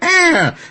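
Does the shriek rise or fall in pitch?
fall. The shriek slides downward in pitch.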